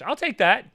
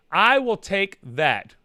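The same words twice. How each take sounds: First: Said in the usual way. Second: "I will take that" drawn out slowly, word by word; loud, deliberate "I will take that", each word weighted; slow emphasis. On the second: Real, not acted. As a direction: stretch "I will take that" for firm approval. Emphatic repeat of acceptance.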